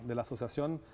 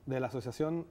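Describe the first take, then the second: No difference in how they are said.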